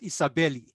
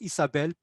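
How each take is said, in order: First: An extra vowel is heard after the final l. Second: The word ends on the l with no vowel. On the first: The speaker calls it wrong. "It's not Isabeli" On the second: The speaker calls it right. "It's just Isabel"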